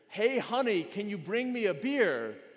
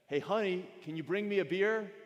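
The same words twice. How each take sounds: First: It is shouted very loudly. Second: It is said in a raised voice.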